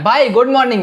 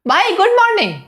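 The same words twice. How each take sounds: First: The greeting sounds deep and confident from the belly. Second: The greeting sounds weak and pleading, like begging. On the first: The speaker seems self-assured. The speaker calls it right. "आवाज को deep करके अपने diaphragm से बोलो" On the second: The speaker seems needy. The speaker calls it wrong. "ऐसा नहीं लग रहा कि भाई तुम मुझसे भीख मांग रहे हो"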